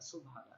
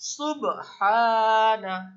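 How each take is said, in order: First: The b is held quietly with no bounce. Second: The b is released with a short echoing bounce. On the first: The speaker calls it wrong. "আমি কিন্তু কলকলা উচ্চারণ করতে পারলাম না" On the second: The speaker calls it right. "কলকলা উচ্চারণ করতে হলে আমাদের কি কি বলতে হবে"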